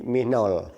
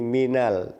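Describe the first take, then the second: First: The vowel before the final l sounds like 'o'. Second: The vowel before the final l is a clear 'a'. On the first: The speaker calls it wrong. "Tidak menjadi minol" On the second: The speaker calls it right. "Min bertemu al menjadi minal"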